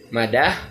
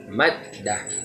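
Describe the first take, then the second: First: The middle d sound is short, not held. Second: The middle d sound is doubled and pressed. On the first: "kalau tidak ada tasydid, jadi kita baca madah" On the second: "karena ada tasydid, jadi kita tekankan maddah"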